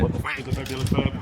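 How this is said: It is said flatly like a robot.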